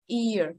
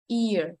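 The two takes are said the same way.

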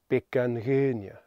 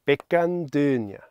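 First: The consonant after 'an' is a softened sound. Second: The consonant after 'an' is a plain hard sound. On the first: "otherwise you have to create the z sound" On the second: "we don't need lenition because our mouths are ready to say these words already"

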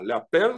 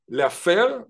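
First: The middle consonant is a p sound. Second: The middle consonant is an f sound. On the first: It means putting on makeup. "לאפר זה לשים מייקאפ" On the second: It means putting the cigarette ash into the ashtray. "לאפר זה מה שנקרא לשים את הסיגריה בתוך המאפרה"

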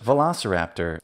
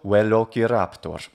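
First: It is said with ordinary English pronunciation. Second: It is said with classical Latin pronunciation. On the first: "In English, Velociraptor is a perfectly fine way to say the name" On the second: "and classical"

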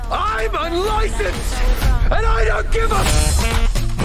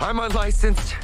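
First: It is said loudly. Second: It is said quietly.

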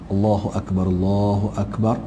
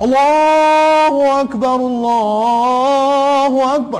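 First: It is said softly and gently. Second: It is said very loudly and forcefully.

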